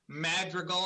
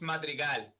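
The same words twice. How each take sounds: First: The name is pronounced with English sounds. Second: The name is pronounced with Spanish sounds.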